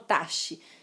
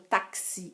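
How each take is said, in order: First: The x is pronounced as a sh sound. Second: The x is pronounced as a ks sound. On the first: The speaker calls it wrong. "eu não falo taxi" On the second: The speaker calls it right. "Eu falo táxi"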